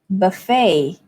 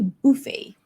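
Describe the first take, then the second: First: The stress is on the second syllable. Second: The stress is on the first syllable. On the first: This is the American English pronunciation. "the stress falls on the second syllable" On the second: This is the British English pronunciation. "So the stress falls on the first syllable"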